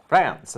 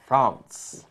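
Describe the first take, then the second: First: France said the American way with a flat a, fræns; France in plain American English, the a as in cat; American pronunciation. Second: France said the French way with a nasal vowel, fɹɑ̃ns; French pronunciation. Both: Shown as a demonstration. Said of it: "as we say here".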